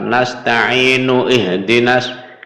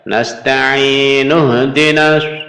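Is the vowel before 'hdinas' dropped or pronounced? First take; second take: pronounced; dropped. First: The vowel before 'hdinas' is pronounced. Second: The vowel before 'hdinas' is dropped. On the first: The speaker calls it wrong. "bukan dibaca lengkap" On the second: The speaker calls it right. "hamzahnya tidak tidak dibaca"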